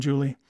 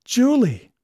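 First: Said in the usual way. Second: Astonished cry. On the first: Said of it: "same name said plainly later". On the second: A narrator's reading. Danby recognises old sweetheart.

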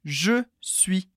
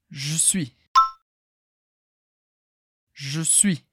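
First: "Je suis" with both vowels full and clear; slow model of "je suis"; slow and careful. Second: "Je suis" with the E dropped, "j'suis"; casual reduced "je suis"; quick informal. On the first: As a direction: say "je suis" slowly, every sound in place. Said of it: "Repete bem devagar". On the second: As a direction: clip "je suis" into one fast syllable. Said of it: "de um jeito bem rápido". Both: Shown as a demonstration.

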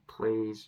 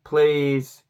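First: Said in the usual way. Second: A louder, desperate "please"; pleading louder. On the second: Retold or imitated. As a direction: beg him to stop, mortified. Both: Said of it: "I'm like".

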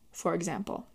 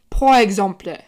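First: Said in the usual way. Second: French accent. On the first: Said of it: "for those of you who don't speak French". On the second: Shown as a demonstration. Showing off her French to viewers, mock French accent. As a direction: pour exemple in a mock French accent, louder. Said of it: "I can do a killer French accent".

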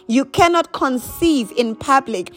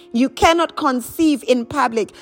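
Both takes have the same delivery.

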